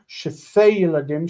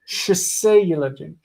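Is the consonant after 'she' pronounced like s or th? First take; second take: th; s. First: The consonant after 'she' sounds like th. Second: The consonant after 'she' sounds like s. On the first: "if it's if it's uh, Yemenite"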